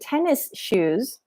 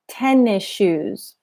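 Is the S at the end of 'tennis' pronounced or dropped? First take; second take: pronounced; dropped. First: The S of tennis is pronounced separately. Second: The S of tennis blends into shoes. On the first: It sounds like a non-native speaker. The speaker calls it wrong. "it sounds like a non-native speaker" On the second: It sounds more natural. The speaker calls it right. "her mouth and her sound does not pronounce the S"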